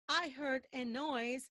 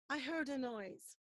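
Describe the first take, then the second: First: The word 'a' is full and separate. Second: The word 'a' is reduced and linked. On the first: The speaker calls it wrong. "Don't say" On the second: The speaker calls it right. "Say, I heard a, and there's linking there"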